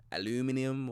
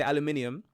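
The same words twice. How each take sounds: First: "aluminium" imitated the American way, stressed on the "loo"; American pronunciation. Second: Said in the usual way. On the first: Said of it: "apparently you guys say". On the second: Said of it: "I say aluminium".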